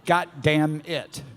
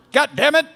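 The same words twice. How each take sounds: First: Said in the usual way. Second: High, loud playful mock yell; angry dad. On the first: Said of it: "I thought my name was Got Damn". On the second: Imitating dad yelling for his kid, angry. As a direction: yell it like an exasperated father. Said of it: "that's the angry part of my dad".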